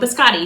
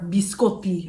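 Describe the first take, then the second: First: It is said with an anglicized American pronunciation. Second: It is said with a native Italian-style pronunciation. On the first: This is how the speaker herself says it. "I say it like a like a gringa" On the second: This is how the speaker's father says it. "as my dad would say"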